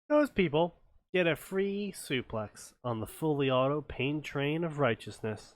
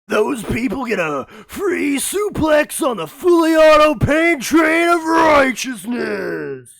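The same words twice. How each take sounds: First: It is read in an ordinary speaking voice. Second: It is read in a loud, wrestler-style voice. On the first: The speaker calls it wrong. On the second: The speaker calls it right.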